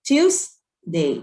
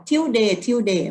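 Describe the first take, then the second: First: "Tuesday" with every sound said clearly, ending crisp; correct Tuesday. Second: Imitating kids saying "Tuesday" without the final sounds; mock the clipped "Tuesday" kids say; wrong Thai-style Tuesday. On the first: Shown as a demonstration. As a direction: model the proper "Tuesday" for the class. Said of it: "ต้องออกว่า". (ออกเสียง Tuesday ให้ครบทุกเสียง) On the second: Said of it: "เด็กๆจะบอกว่า". (ออกเสียง Tuesday แบบผิดๆ ตามที่เด็กพูด)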